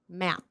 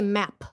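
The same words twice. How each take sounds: First: The final P is stopped without release. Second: The final P is fully released with air. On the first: The speaker calls it right. "it's a stopped P" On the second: The speaker calls it wrong. "You don't say map"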